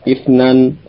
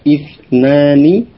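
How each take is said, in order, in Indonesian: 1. Kata itu diakhiri tanpa akhiran kasus. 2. Kata itu diakhiri dengan akhiran kasus lengkap.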